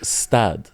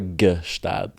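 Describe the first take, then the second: First: It begins directly with an s sound. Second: It begins with a g plus a vowel. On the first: "And never stad" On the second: "Never gestad"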